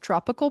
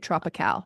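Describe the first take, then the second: First: The word is said in a plain English accent. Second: The word is said in a foreign-sounding accent. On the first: "actually just tropical" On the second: "I have to say tropical"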